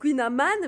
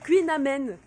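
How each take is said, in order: First: The last syllable ends in an 'an' sound. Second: The last syllable ends in an 'en' sound. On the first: This is how most people say it. The speaker calls it wrong. "tout le monde dit Queen Aman, mais c'est pas comme ça qu'il faut le prononcer" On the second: This is how it should be said. The speaker calls it right. "il faut dire Queen Amen"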